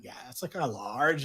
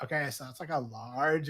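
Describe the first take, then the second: First: Mimicking affected voice. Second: Imitated affected voice. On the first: Customer mimicking the coffee server, mock-lazy affectation. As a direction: lightly parrot the affected voice back. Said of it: "Why are you talking like that?". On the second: Woman at the coffee order, imitated lazy affectation. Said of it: "affiliation that you're supposed to put on".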